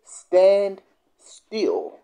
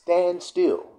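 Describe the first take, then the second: First: Hushed unvoiced command; whispered stand still. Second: Said in the usual way. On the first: Shown as a demonstration. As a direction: whisper it firmly. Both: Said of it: "Second thing he says".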